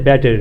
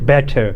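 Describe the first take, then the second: First: It is said in an American accent. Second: It is said in a British accent. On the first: "if you are speaking with U S A language, they say better" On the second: "when you talking with British accent, you say better"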